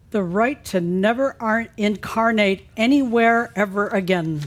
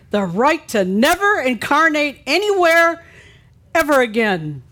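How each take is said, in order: First: It is read flatly, without much expression. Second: It is read emphatically, like exclamation points.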